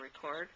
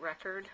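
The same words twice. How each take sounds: First: Second way of saying "record", as re-CORD; alternative pronunciation. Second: First way of saying "record", as the noun REK-erd; pronunciation variant. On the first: Crafter offering the other reading of the stamped word, "record" as re-CORD. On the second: Crafter offering one reading of the stamped word, "record" as REK-erd. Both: Shown as a demonstration. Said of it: "record or record".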